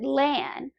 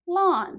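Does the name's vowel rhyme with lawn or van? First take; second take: van; lawn. First: The vowel rhymes with van. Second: The vowel rhymes with lawn. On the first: The speaker calls it wrong. "Most people pronounce it Lan. Rhymes with van or pan" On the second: The speaker calls it right. "it's a soft A, so it would be pronounced lawn. Like the thing you mow at home"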